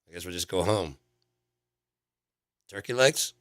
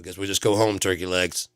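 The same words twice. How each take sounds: First: A clear pause comes before "turkey legs." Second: "Turkey legs" follows with no real pause. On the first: The speaker calls it right. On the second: The speaker calls it wrong.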